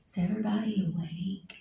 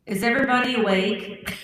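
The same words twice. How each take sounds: First: Soft, breathy whisper. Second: Said in the usual way. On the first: Shown as a demonstration. Checking whether everybody is awake, whispering. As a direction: whisper it into the mic. Repeats the test much softer.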